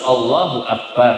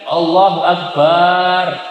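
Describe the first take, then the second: First: The last vowel of akbar is kept short. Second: The last vowel of akbar is drawn out long. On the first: The speaker calls it right. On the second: The speaker calls it wrong. "Yang baknya tidak boleh dipanjangkan"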